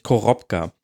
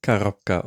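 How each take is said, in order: First: Korobka with a clear O in the first syllable; mispronounced. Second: Korobka as "ka-ROP-ka", first O turned to A; corrected pronunciation. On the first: Podcast host trying a newly learned Russian word, Korobka mispronounced with O. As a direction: say Korobka as spelt, first vowel O not A. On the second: Host repeating the blogger's correction, Korobka pronounced with an A first. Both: Real, not acted. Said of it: "ein unbetontes O wird wie ein A gesprochen".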